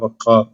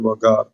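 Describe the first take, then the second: First: The middle consonant is a deep throaty q sound. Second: The middle consonant is a plain g sound. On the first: This is the original pronunciation. "വഖാർ എന്നാണ് അതിന്റെ യഥാർത്ഥ ഉച്ചാരണം" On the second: This is how it is said in Egypt. "Egyptians അത് വഗാർ എന്നാണ് ഉച്ചരിക്കുക"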